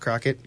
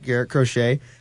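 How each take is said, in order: First: The name ends with a hard 'kit' sound. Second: The name ends with a soft 'shay' sound. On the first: The speaker calls it wrong. "not Crockett" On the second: The speaker calls it right. "is that how you pronounce it? Correct"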